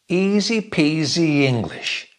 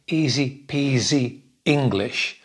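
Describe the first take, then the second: First: Peasy runs into English with a small y sound. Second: Peasy and English are said separately, not joined. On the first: The speaker calls it right. "I join peasy English" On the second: The speaker calls it wrong. "I don't say"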